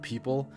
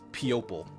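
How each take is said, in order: First: The word is said with its usual pronunciation. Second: The word is sounded out letter by letter.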